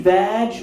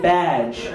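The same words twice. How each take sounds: First: "badge" said with V for B, as "vadge"; confused mispronunciation. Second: Said in the usual way. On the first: Shown as a demonstration. Comic showing the office's mishearing, "badge" as "vadge". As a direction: start "badge" on a V sound. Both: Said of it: "they confused badge with badge".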